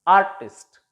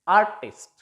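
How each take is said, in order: No difference in how they are said.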